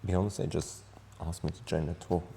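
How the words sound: It is said in a sad, trembling tone.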